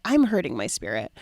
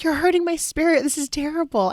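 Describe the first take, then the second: First: Said in the usual way. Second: Higher-pitched, wounded protest; dramatic complaint. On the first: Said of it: "I've just been able to say". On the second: Retold or imitated. Wife protesting her husband's road rage, overdramatic. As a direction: imitate your overdramatic former self. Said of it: "that was so dramatic".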